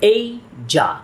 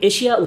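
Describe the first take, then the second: First: The word begins with an 'ay' sound. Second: The word begins with an 'eh' sound. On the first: The speaker calls it right. "এটার সঠিক উচ্চারণ" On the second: The speaker calls it wrong. "আমরা এটিকে এশিয়া উচ্চারণ করলেও"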